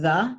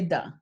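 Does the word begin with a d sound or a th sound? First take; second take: th sound; d sound. First: It begins with a soft th sound. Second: It begins with a hard d sound. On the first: The speaker calls it right. "instead of saying the" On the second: The speaker calls it wrong. "you say the"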